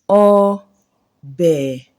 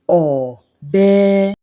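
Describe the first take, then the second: First: Mid tone, then a low tone. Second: Low tone, then a mid tone. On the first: "The tone on the first one is mid and low" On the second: "the tone on the last one here is do, re, low and mid"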